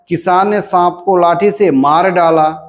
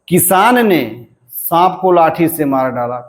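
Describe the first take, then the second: First: The stress falls on the words मार डाला. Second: The stress falls on the word किसान.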